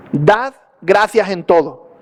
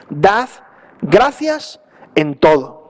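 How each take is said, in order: First: "gracias" stressed, said slowly; slow verse reading. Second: "gracias" drawn out as an order; slow commanding stress. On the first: Reading the verse to the congregation, slowly, with stress on "gracias". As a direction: read "dad gracias en todo" slowly, weighing "gracias". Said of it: "fijaos lo que dice el versículo". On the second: Stressing the command to the congregation, "gracias" drawn out. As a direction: say "Dad gracias en todo" slowly, as a command, leaning on "gracias". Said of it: "empiezan con una orden". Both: Shown as a demonstration.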